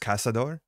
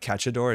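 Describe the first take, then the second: First: The middle consonant is an 's' sound. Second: The middle consonant is a 'ch' sound. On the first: The speaker calls it right. "it's Casador" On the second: The speaker calls it wrong. "it's not Cachador"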